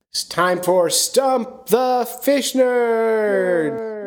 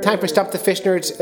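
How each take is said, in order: First: Drawn-out, high game-show title call; big hammy jingle-style intro; segment announcer. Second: Said in the usual way. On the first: Pretend. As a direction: stretch each word, climbing into a long held finish.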